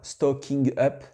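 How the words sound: It is said with a French accent. The speaker calls it wrong. "Je ne dis pas comme un francophone. Stocking up, non"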